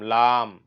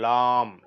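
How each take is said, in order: Both takes have the same delivery.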